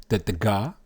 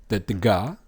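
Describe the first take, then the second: No difference in how they are said.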